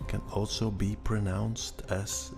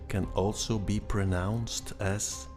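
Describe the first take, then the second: No difference in how they are said.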